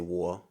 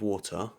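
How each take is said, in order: First: The t in the middle is dropped. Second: The t in the middle is clearly pronounced. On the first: This is how an ordinary local speaker says it. "like your typical British person" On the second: This is how an upper-class speaker says it. "the posh people over here would be like"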